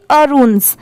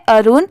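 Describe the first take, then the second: First: अरुण्स ending in an audible S; final S sound. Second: Said in the usual way. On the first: Shown as a demonstration. Teacher explains the added letter, final S sounded. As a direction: add a hissed S to the end of अरुण्स. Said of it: "last में स की जो sound". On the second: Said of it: "सिर्फ एस लगने की वजह से".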